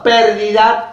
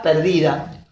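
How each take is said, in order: First: "Pérdida" with the stress on the first syllable, PÉR-di-da. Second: "perdida" with the stress on the middle syllable, per-DI-da; stress on second syllable. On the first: Teacher contrasting stress for the class, PÉR-di-da. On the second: Teacher contrasting stress for the class, per-DI-da. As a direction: lean on the DI of "perdida". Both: Shown as a demonstration. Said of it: "no es lo mismo decir pérdida que perdida".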